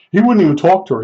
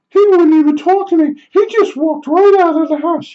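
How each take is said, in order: First: Said in the usual way. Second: High falsetto whine of a put-out woman; mocking the neighbor. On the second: Neighbor complaining about the tile guy, high mock falsetto. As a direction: mimic her complaining in a silly squeak.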